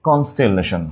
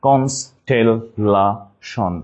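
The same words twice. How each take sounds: First: Said in the usual way. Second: Very slow "constellation", each syllable apart. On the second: Shown as a demonstration. Teacher spelling for class, "constellation" split slowly by syllable. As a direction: break "constellation" into separate syllables, pausing between. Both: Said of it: "just একটু ভেঙে নিব".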